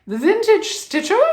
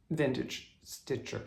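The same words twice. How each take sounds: First: Vintage Stitcher in a high, loud, put-on British accent; playful British impression of The Vintage Stitcher; mock British accent. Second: Said in the usual way. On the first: Shown as a demonstration. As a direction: say The Vintage Stitcher like a posh Brit, pitched way up. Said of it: "is much easier for me to say". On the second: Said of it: "It's hard for me to say".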